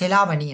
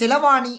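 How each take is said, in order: First: The second syllable has the long vowel. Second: The third syllable has the long vowel. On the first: The speaker calls it right. "செலாவணி என்று சொல்லி சொல்லுவோம்" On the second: The speaker calls it wrong. "செலவாணி என்று சொல்லி சொல்ல மாட்டோம்"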